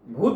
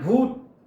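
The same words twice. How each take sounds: First: It is said plainly, without any fear. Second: It is said in a scary, frightening way.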